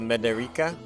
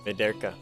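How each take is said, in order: First: An extra 'ee' vowel is sounded after the r. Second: No vowel is sounded between the r and k. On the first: "Y is uh, E sound" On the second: "Y is silent"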